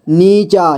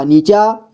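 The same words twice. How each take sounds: First: नीचा as नी-चा, falling at the end; syllable by syllable. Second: Said in the usual way. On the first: Shown as a demonstration. Teacher showing beginners how to read नीचा, syllable by syllable. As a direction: give each half of नीचा its own beat. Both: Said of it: "जोड़ जोड़ करके ही पढ़ना होगा".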